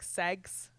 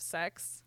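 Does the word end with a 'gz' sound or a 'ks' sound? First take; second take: gz; ks. First: The word ends with a voiced 'gz' sound. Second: The word ends with a voiceless 'ks' sound. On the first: It is a disguised form to avoid the algorithm. "how things on like TikTok say like sex" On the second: It is the ordinary form of the word. "instead of sex"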